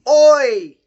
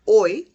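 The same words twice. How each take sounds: First: It is said in a loud voice. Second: It is said at a normal volume.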